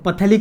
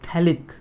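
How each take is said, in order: First: The word starts with a p sound. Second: The word starts with a th sound. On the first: The speaker calls it wrong. "पथेलिक ही मत बोलना है" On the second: The speaker calls it right. "पीएच silent होता है"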